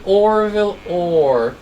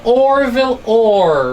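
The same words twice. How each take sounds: First: "Orville Orr" said slowly, a little softer; slow quiet name. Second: "Orville Orr" stretched slowly and louder; slow drawn name. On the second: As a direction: drag out "Orville Orr" for the class. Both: Shown as a demonstration. Teacher repeating "Orville Orr" slowly to pupils. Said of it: "So again".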